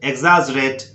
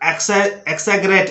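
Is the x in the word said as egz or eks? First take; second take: egz; eks. First: The x sounds like egz. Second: The x sounds like eks. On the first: The speaker calls it right. "एक्स का sound एग्स" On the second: The speaker calls it wrong. "वो भी गलत है"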